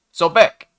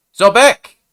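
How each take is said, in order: First: Hesitant croaked call, rising; a nervous, cracking hail; tentative croak. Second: Loud high shout. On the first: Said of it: "Came out as a bit of a tentative croak". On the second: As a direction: call out across the sand. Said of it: "cleared his throat and shouted it". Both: A narrator's reading.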